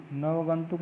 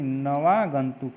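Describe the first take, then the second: First: नवगंतुक as "nav-gantuk"; wrong form. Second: नवागंतुक with a long "vaa"; deliberate na-vaa-gantuk for नवागंतुक; correct form. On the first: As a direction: skip the long a in नवगंतुक. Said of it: "नहीं". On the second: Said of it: "होता है". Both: Shown as a demonstration.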